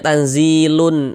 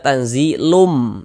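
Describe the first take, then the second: First: The final nasal is said as an n sound. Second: The final nasal is said as an m sound. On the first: The speaker calls it wrong. "Jangan dibaca tanzilun" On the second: The speaker calls it right. "Jadi kita baca tanzilum"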